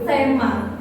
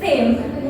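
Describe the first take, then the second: First: The word is said as two syllables. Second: The word is said as one syllable. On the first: The speaker calls it wrong. "not tema" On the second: The speaker calls it right. "the right way is theme"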